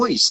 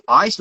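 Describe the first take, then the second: First: "ice" said as "oice", Australian style; mimicked Aussie "oice" with a rounded vowel; Australian accent. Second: Said in the usual way. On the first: Shown as a demonstration. Interpreter checks coach's word, imitated Australian accent. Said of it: "typical example of accent variation". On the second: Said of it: "Did you say ice or ice?".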